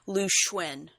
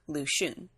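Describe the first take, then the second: First: The name is said in a Chinese-style way. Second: The name is said in an anglicized way. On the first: This is the newer way the games said it. "all of a sudden they're they're pronouncing it as Lu Xuen" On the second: This is the older way the games said it. "All this time they were pronouncing that as Luxun"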